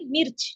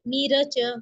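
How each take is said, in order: First: The r joins straight onto the ch. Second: The r is followed by a vowel. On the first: "इस पर जज्म लग गया, इस रॉ पर" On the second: "बगैर जजम वाला"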